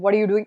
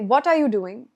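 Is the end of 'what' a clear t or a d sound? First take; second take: d sound; clear t. First: The t in 'what' sounds like a d. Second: The t in 'what' is a clear t. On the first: The speaker calls it wrong. "ending that what with a d sound" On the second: The speaker calls it right. "You can say"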